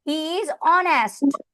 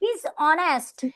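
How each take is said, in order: First: 'He is' is said as two full words. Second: 'He is' is contracted into one syllable.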